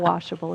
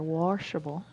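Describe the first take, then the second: First: The word is said with a standard accent. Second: The word is said with a Midwestern accent. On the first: "depending upon where you're from" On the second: "I heard a little of the Midwestern accent there"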